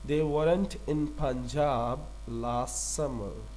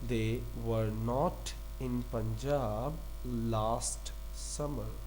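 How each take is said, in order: First: The negative is contracted into one syllable. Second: The negative is said as two full words. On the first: "वॉरेंट" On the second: "वर नॉट पढ़ लें इसकी जगह"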